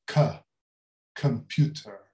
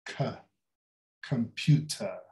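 The two takes are said the same way.

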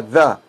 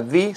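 First: "the" with an open uh, thuh; uh vowel in "the". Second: "the" with a long ee, thee. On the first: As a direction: say "the" with a short neutral vowel. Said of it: "se pronuncia the". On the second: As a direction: say "the" rhyming with see. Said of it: "ya no se pronuncia the". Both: Shown as a demonstration.

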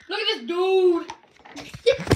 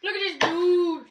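First: Drawn-out teasing. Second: Said in the usual way. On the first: Acted. Repeated drawn out.

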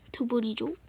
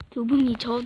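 First: Said in the usual way. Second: Much louder, forceful; loud, exasperated correction; shouted insistence. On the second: Acted. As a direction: snap it back loudly. Repeated as an outburst.

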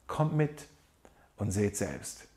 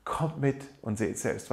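First: Soft, inviting Jesus voice; quiet, tender call to come along; gentle invitation. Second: Slower, softer repeat of the call; savouring the words, tender and slow; slow tender invitation. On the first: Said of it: "diese wunderbare Einladung". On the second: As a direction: let the invitation sink in slowly. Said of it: "Was für eine wunderschöne Einladung". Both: Retold or imitated.

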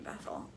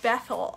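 First: "Bethel" repeated much softer and tenderly; fond repeat. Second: Said in the usual way. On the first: Real, not acted. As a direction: savour the name gently. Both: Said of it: "Oh, I love your name".

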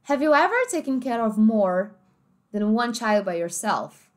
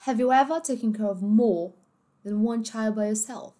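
First: American English, R sounded in ever and more; American accent. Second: British English, ever and more without R; British accent. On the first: Teacher reading the example sentence, American accent. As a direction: pronounce more with a full American R. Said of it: "no inglês americano a gente falava como?". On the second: Teacher reading the example sentence, British accent. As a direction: swallow every final R, British-style. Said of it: "no inglês britânico". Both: Shown as a demonstration.

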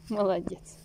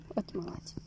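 First: Said in the usual way. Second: Soft whispered praise; whispering. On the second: Real, not acted. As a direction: breathe the praise gently. Praising the dog softly.

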